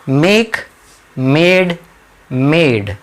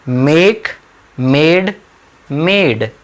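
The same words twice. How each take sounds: The two takes are said the same way.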